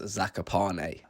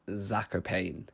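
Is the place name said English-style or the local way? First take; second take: local; English-style. First: The name is said with the local pronunciation. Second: The name is said with an English-style pronunciation. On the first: The speaker calls it right. "we quickly learned from a couple locals that it's pronounced Zakopane" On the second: The speaker calls it wrong. "we were all pronouncing it Zakopane"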